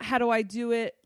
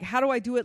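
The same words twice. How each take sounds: First: It sounds doubtful and skeptical. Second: It sounds like a plain, genuine search.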